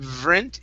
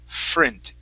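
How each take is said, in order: First: The consonant before the R is a V sound. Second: The consonant before the R is an F sound. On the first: The speaker calls it wrong. "instead of vrint" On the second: The speaker calls it right. "it's frint"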